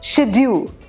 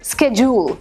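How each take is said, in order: First: It is said with a British pronunciation. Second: It is said with an American pronunciation.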